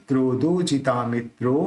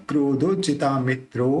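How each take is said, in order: The two takes are said the same way.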